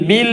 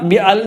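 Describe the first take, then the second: First: It is said as one linked syllable, bil. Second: It is said as two separate parts, bi and al. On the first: The speaker calls it right. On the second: The speaker calls it wrong. "ബി അൽ എന്ന് വായിക്കൂല"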